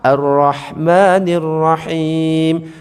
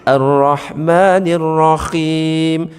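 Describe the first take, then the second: First: The middle consonant is a breathy h. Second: The middle consonant is a scraping kh. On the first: The Most Compassionate, the Most Merciful. "Itu pakai ha" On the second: The Most Compassionate, the Most Melodious. "Diganti kha yang ada titiknya"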